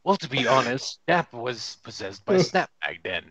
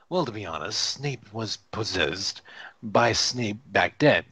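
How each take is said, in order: First: "Snap" said with a short A, like snapping fingers; Snap with short vowel. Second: "Snape" said with a long A, to rhyme with tape; Snape with long vowel. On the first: Rereads the name as misspelled. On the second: First take of misspelled line, then redone. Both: Shown as a demonstration.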